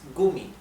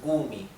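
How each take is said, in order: First: The first vowel is short. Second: The first vowel is long. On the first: The speaker calls it right. "la vocal que le precede se pronuncia bien cortita. Es Gummi" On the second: The speaker calls it wrong. "no es Gummi"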